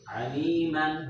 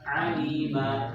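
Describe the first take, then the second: First: The word ends with a short a and n. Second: The word ends with a long a, no n. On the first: The reading continues without stopping. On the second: The reader stops at this word.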